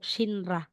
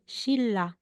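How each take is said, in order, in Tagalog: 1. Ang mga gitnang katinig ay binibigkas bilang N tapos R. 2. Ang mga gitnang katinig ay binibigkas bilang mahabang L. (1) "hindi po" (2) "So ang pagbigkas natin diyan"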